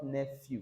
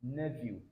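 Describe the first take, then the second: First: "nephew" with an F; "nephew" with an F in the middle, marked wrong. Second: "nephew" with a V; "nephew" said softly with a V; correct nephew. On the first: Teacher showing the wrong "nephew" with an F. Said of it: "Not nephew". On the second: Teacher giving the right "nephew" with a V. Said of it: "it's nephew". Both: Shown as a demonstration.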